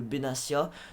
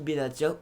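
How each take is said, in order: First: The consonant before the ending is an S sound. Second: The consonant before the ending is a T sound. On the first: "moi je le prononce Mehdi euh, Benassia" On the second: "Benatia ou Benassia, c'est comme euh, vous voulez"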